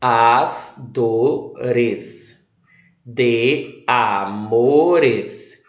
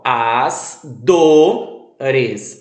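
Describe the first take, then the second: First: Said in the usual way. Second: As dores, with DO leaned on; stress on DO. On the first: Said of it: "preste atenção". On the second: Shown as a demonstration. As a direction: hit the syllable do in dores. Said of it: "O do é mais forte".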